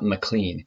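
The name is said the American way.

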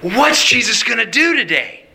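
It sounds eager and excited.

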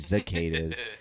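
The word is said with a Baltimore accent. The speaker calls it wrong.

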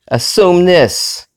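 It is said with a defiant, taunting attitude. The speaker calls it right. "I meant it to be said like, hey"

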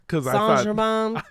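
The name is said with a French pronunciation. "It's what it's supposed to be"

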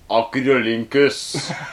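It is said in a German accent.

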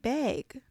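The vowel sounds like the one in 'beg'. "You're saying beg"

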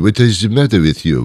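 It is said in a French accent.

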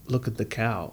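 It is said in a British accent. "like the British would say it"

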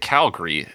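It is pronounced the way locals say it. The speaker is from the city. The speaker calls it right. "instead of Calgary"

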